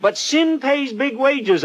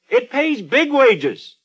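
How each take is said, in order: First: Slow, high, weighty warning; slow emphatic warning. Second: Slow, high, weighty repeat; slow emphatic warning. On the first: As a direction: lean hard on every word. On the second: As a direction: stress BIG in the repeat. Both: Retold or imitated. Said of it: "I said".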